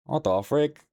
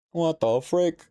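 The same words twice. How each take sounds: First: High rising what the frick; incredulous. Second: Even higher incredulous squeak; shocked, higher. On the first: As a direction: ask it in shocked disbelief. Shocked at chapter length. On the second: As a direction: push the disbelief further up. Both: Real, not acted.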